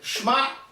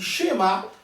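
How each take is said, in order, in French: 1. Le sh enchaîne directement sur le m. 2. Une voyelle brève s'entend après le sh. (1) "On ne peut pas lire Shema" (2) "On dit Shema"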